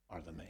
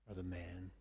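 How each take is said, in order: First: A prophet's hushed verdict to the king. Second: A prophet's quiet second verdict; hushed verdict repeated. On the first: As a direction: let the accusation land quietly. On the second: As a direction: let it sink in, almost under the breath. Repeated accusation. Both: Acted.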